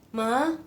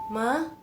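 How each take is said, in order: First: The pitch rises steadily from start to end. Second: The pitch rises steadily from start to end.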